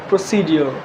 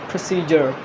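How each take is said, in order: Both takes have the same delivery.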